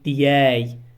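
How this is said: It is said with a y sound, Emirati style.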